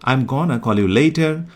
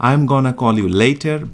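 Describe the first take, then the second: First: The words 'going to' are reduced to 'gonna'. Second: The same.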